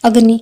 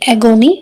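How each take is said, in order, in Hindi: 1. यह शब्द दो सिलेबल में दबाकर बोला जाता है। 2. यह शब्द तीन सिलेबल में बोला जाता है। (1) "एगोनी को अगर मैं प्रोनाउंसिएशन करूं अग्नि टाइप से" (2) "इसकी प्रोनाउंसिएशन क्या होगी?"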